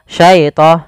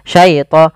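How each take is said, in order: Both takes have the same delivery.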